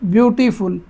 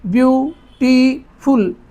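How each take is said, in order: First: The word is said smoothly without breaks. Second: The word is split with pauses between syllables.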